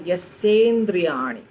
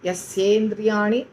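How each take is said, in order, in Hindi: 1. दोनों शब्द जुड़कर एक हो जाते हैं। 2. दोनों शब्द जुड़कर एक हो जाते हैं।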